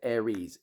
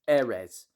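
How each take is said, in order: First: The word ends with a long 'eez' sound. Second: The word ends with a short 'ez' sound. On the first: The speaker calls it wrong. "when I hear people pronounce it Aries. It's not" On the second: The speaker calls it right. "It's Ares, as in air resin"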